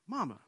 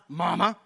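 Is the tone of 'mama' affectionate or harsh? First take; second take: affectionate; harsh. First: Mama is said in a warm, affectionate tone. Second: Mama is said in a harsh, disrespectful tone. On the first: The speaker is showing endearment to his mother. The speaker calls it right. "It's just a reference of endearment" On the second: The speaker is being rude to his mother. The speaker calls it wrong. "Not mama. Not like that"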